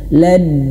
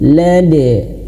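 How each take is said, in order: First: The final d is held without release. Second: The final d is released with a light bounce. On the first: The speaker calls it wrong. "jangan sampai qalqalahnya itu tertahan" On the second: The speaker calls it right. "tapi lanjutkan saja"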